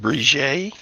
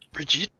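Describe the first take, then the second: First: The name is pronounced the French way. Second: The name is pronounced the English way.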